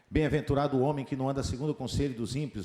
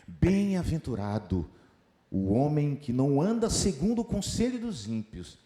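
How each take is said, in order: First: The voice stays flat with little pitch change. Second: The voice varies its pitch and its speed. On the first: The speaker calls it wrong. "não deve ser lido assim" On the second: The speaker calls it right. "A mudança da tonalidade faz com que o texto seja melhor compreendido"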